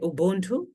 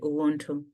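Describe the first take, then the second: First: The middle consonant is a B sound. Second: The middle consonant is a W sound. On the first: "some people say Ubuntu" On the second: "as a W instead of B"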